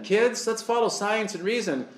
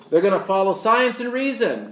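First: Lightly mocking chipper voice to children, softer; mock Satan club leader. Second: Said in the usual way. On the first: Club leader coaxing the kids, mocking and soft. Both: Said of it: "And they say that".

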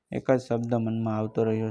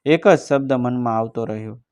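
First: Softer, sinking echo of the line; softer repeat. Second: Said in the usual way. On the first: A narrator's reading. Narrator repeats the line to himself, softer. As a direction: let the repeat fade inward.

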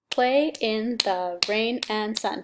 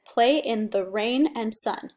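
First: "Play in the rain and sun" split slowly into six beats; slow syllable count. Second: Said in the usual way. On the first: Shown as a demonstration. Teacher counts syllables for the class, slow and even. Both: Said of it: "That's the six syllables".

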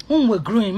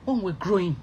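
First: Restarted louder, with weight on when. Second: Said in the usual way. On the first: Shown as a demonstration. Telling the fans about [name], restarting louder. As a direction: hit it again, louder.

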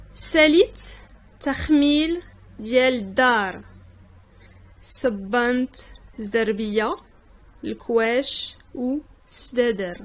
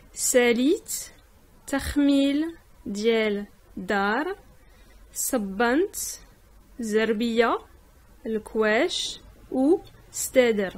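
Both takes have the same delivery.

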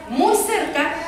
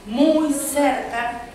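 First: Said in the usual way. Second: "muy cerca" stretched very slowly for suspense; drawn out slowly. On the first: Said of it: "muy cerca (stretched)". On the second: A narrator's reading. Storyteller starting the wolf tale, "muy cerca" stretched slowly. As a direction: draw out "muy cerca" slow and ominous.

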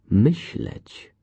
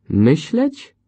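First: Said in the usual way. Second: High, loud scoffing echo of Myśleć; Myśleć as a scornful question; scornful exclaim. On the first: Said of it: "Zostaje tylko jedno". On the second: A narrator's reading. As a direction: throw Myśleć back with contempt. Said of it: "z pogardą".

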